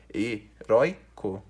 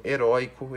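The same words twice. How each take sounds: First: "heróico" broken into e, rói, co with pauses; syllable by syllable. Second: Said in the usual way. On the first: Shown as a demonstration. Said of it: "porque você separa como". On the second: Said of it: "porque você separa como heróico".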